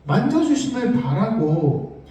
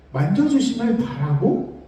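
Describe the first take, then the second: First: 만져주심을 stressed, tune falling at the end; slow, stress 만져주심을 and let it fall; falling emphasis. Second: 만져주심을 stressed, tune rising at the end; rising emphasis. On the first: (만져주심을 강조하고 끝을 내려서 천천히) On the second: (만져주심을 강조하고 끝을 올려서) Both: Shown as a demonstration.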